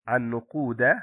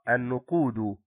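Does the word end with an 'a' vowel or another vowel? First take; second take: a vowel; other vowel. First: The word ends with the accusative 'a' vowel. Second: The word ends without the accusative 'a' vowel. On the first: The speaker calls it right. "الصواب النقود لأنه مفعول به منصوب" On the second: The speaker calls it wrong. "الخطأ النقود"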